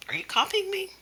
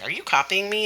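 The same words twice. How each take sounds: First: High-pitched pretend indignation; mock mad. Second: Higher-pitched parroted question; copycat child. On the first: Teacher to the copycat child, mock mad. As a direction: act put out, voice pitched right up. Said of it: "act like I'm getting mad". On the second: Acted. Child copying the teacher's question, copycat echo. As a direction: echo the mock-indignant question back. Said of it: "And they'll say".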